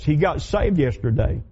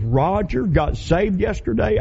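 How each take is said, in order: First: Said in the usual way. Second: Slow, higher, choked-up question; imitating her voice catching on tears; tearful disbelief. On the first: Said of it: "Get this". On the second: Bank officer tearing up over Roger's news, slow and higher. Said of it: "got the cry and said".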